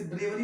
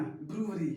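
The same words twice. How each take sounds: First: ब्रेवरी with an "e" sound, BRE-wari; wrong pronunciation. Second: ब्रूवरी with an "oo" sound, BROO-ri; corrected pronunciation. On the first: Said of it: "इसे ब्रेवरी मत बोलना". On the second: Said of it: "ब्रेवरी मत बोलना". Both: Shown as a demonstration.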